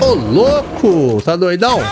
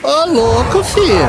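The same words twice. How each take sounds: First: Slow drawn-out exclaim. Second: Sudden high rising exclamation; high surprised yelp. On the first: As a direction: stretch the exclamation long and falling. Espanto na luta do jogo. (exclamação arrastada de espanto) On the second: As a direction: squeal it out in shock. Surpresa com inimigo no jogo. (grito agudo de surpresa) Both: Real, not acted.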